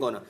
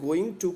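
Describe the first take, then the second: First: "gonna" run together as one word, GUN-uh; elided pronunciation. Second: Said in the usual way. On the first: Shown as a demonstration. Teacher showing students how going to becomes elision, elided "gonna". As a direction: reduce going to into a casual "gonna". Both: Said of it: "going to को हम कहते हैं gonna".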